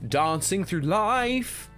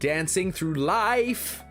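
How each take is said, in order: First: It is said in an exaggerated British accent. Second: It is said in an American accent. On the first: "they over-Britishize the entire show. So the song that everyone likes is, they say dancing through life rather than dancing" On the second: "Whereas in America"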